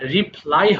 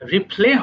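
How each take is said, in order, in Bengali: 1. শব্দটি 'eye' স্বরধ্বনি দিয়ে শেষ হয়েছে। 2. শব্দটি 'ay' স্বরধ্বনি দিয়ে শেষ হয়েছে। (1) "রিপ্লাই হবে" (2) "এটা অনেকে ভুল করে রিপ্লে বলে ফেলো"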